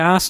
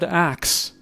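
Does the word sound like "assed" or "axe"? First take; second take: assed; axe. First: The word sounds like "assed", with no k sound. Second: The word sounds like "axe", with k before s. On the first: "A S S E D. That's what it sounds like" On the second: "every almost everyone said axe"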